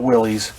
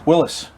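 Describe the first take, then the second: First: The name ends with a long 'eez' sound. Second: The name ends with a short 'is' sound. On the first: The speaker calls it wrong. "not Willie's" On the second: The speaker calls it right. "I am saying it right"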